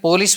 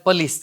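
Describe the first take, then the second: First: The first vowel is a full 'o' sound. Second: The first vowel is a reduced 'uh' sound. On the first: The speaker calls it wrong. "આપણે જેને પોલીસ બોલીએ" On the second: The speaker calls it right. "એનો ઉચ્ચાર પલીસ થાય છે"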